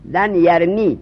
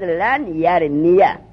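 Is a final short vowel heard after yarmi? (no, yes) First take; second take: no; yes. First: The verb ends without a final vowel. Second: The verb ends with a short 'a' vowel. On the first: The phrase ends here with a stop. "در حالت وقتی" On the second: The phrase continues into the following words. "فتر آورد برای یا"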